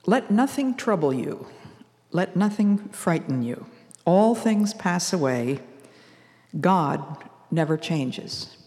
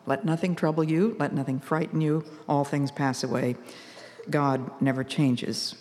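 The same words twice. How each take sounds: First: Slow, lifted recitation, each line set apart; poem recited. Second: Softer, settled repeat of the poem; calm repeat. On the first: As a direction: read it like a cherished poem, slowly. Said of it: "that calms me and helps me to keep a quiet heart". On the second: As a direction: say it again softly, to calm your own heart. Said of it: "calms me and helps me to keep a quiet heart". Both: Shown as a demonstration.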